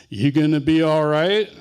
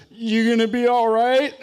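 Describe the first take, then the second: First: Louder teasing question; brother's mock concern. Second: High, loud, laughing query; Jerry stifling a laugh. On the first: Brother teases hurt Jerry with his old question. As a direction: echo Jerry's old question with a sly edge. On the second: Retold or imitated. Jerry asks the hurt boy, laughing high and loud. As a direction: ask it while about to bust out laughing. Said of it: "finally he goes".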